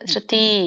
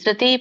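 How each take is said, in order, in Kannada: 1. ಕೊನೆಯ ಸ್ವರ ದೀರ್ಘ. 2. ಕೊನೆಯ ಸ್ವರ ಹ್ರಸ್ವ. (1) "ದೀರ್ಘ ಹೊತ್ತು ಯಾಕೆ ಇಟ್ಟಿದ್ದಾರೆ, ಅದನ್ನ ಅದೇ ತರ ಉಚ್ಚಾರಣೆ ಮಾಡ್ಬೇಕಂತ" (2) "ಇಲ್ಲ"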